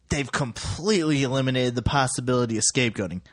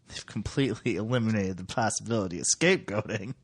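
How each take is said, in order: First: It sounds approving, like good news. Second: It sounds worried, like bad news.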